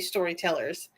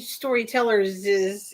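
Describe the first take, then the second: First: The word ends with no extra syllable. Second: An extra syllable is added after the word. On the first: The speaker calls it right. "you would still just say storytellers" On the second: The speaker calls it wrong. "you wouldn't say storytellers is"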